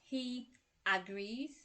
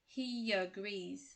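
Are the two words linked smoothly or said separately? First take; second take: separate; linked. First: The words are separate, with no linking y sound. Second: A y sound links the two words smoothly. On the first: The speaker calls it wrong. "It's not" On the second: The speaker calls it right. "we use the Y sound"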